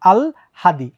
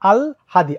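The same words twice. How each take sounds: First: The l sound comes before the h. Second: The l sound comes before the h.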